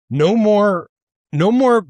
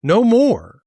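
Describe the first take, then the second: First: Emphatic. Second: Higher, forceful "No more."; angry declaration, higher; emphatic. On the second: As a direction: slam the door on them. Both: Real, not acted. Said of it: "I'm worked up".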